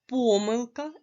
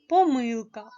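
First: "помилка" stressed on "по", higher pitch; first-syllable stress. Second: "помилка" stressed on "ми", higher pitch; second-syllable stress. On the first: ("помилка" з наголосом на перший склад "по") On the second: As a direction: put the weight on middle "ми" in "помилка". ("помилка" з наголосом на другий склад "ми") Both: Shown as a demonstration. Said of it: "можна наголошувати так".

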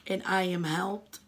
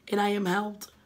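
Both takes have the same delivery.

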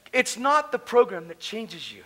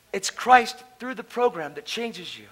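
First: "not" drawn out and slow; slow, weighted "not" in a sermon point; stress on not. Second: "Christ" stressed slowly and firmly; slow, weighted "Christ" in a sermon point. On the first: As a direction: lean slowly on "not". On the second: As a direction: land hard on "Christ". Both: Shown as a demonstration.

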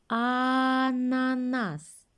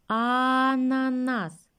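First: Ананас very slow, first А stretched long; drawn-out first sound. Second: Ананас very slow, first А stretched and stronger; drawn-out first sound, louder. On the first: Teacher stretching the first sound for kids. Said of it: "Починаємо". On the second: Teacher repeating the word for kids. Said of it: "Ще раз". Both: Shown as a demonstration.

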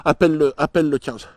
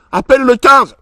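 First: Said in the usual way. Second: Higher, louder panicked plea. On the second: Acted. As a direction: beg her to call, panicking.

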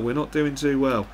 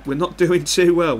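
First: Said in the usual way. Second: Higher and louder, laughing through the words; laughing at himself. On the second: Real, not acted. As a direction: chuckle at how badly it's going. Laughs at losing at half-time.

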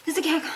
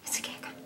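First: Said in the usual way. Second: Whispered, barely audible. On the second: Acted. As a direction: whisper it so the cat won't hear.

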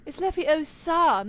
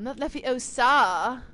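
First: "Leviosa" slow and higher, leaning on the O; stress in Leviosa. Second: "Leviosa" slow, leaning on the final SA; mocked wrong stress. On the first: Acted. Fan quoting a film correction, "Leviosa" slowly said the right way, stressed O. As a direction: correct someone, stretching the O in "Leviosa". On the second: Fan quoting a film correction, "Leviosa" mocked with a long final A. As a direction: mimic the mistake, dragging out the last syllable of "Leviosa". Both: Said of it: "like, those kinds of things".

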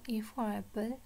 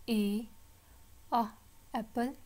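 First: Said in the usual way. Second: "A", pause, short "a", pause, "apple"; letter, sound, word. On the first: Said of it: "पहले हमने like that पढ़ा था". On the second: Shown as a demonstration. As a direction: break "A, a, apple" into three spaced beats. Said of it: "So अब हम पढ़ेंगे". ("A, a, apple" तीन हिस्सों में रुककर)

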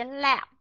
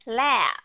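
First: "lab" said with a shorter vowel, like "lap"; "lab" shortened, ending on closed lips. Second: "lab" with the vowel drawn out long. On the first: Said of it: "hay đọc ngắn cái nguyên âm". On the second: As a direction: hold "lab" long, voiced ending. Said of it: "kéo dài cái nguyên âm". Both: Shown as a demonstration.

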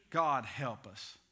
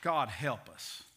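No difference in how they are said.

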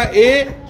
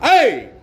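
First: Said in the usual way. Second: Short scolding "ए", falling sharply; scolding demo. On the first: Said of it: "मैं बोलूंगा ए और आप". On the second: Shown as a demonstration. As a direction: say "ए" like a quick telling-off. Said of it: "मुझे डांट के बोलना".

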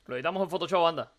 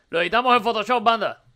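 First: Said in the usual way. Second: Same line again, louder and brighter in pitch; more energetic retake; louder repeat. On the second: Shown as a demonstration. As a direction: punch it up the second time. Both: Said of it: "repeated louder".

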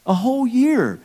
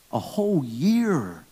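First: "A whole year" shouted high and loud, YEAR stretched; loud, high emphatic repeat. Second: Said in the usual way. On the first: Acted. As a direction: belt out "A whole year" with disbelief.

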